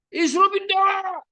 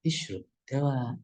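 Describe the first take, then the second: First: Harsh wrong reading. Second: Softly, slowly coaxing; gentle fatherly tone. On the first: Teacher mocks a father advising his sick child, shouted high. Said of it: "Kan nggak mungkin begitu". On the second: Father telling his sick child to take medicine, soft and slow. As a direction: urge it gently, taking your time. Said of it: "dengan nada yang lembut". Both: Shown as a demonstration.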